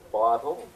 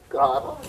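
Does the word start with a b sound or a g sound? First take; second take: b sound; g sound. First: It starts with a b sound, lips closing. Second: It starts with a g sound, lips staying apart. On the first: "Bottle makes my lips bounce" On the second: "Gottle doesn't make my lips bounce"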